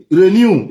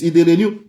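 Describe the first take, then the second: First: Renew pushed out louder; stress on renew. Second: Said in the usual way. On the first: Real, not acted. Ranting about endless permits, renew punched louder. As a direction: hit renew hard and loud.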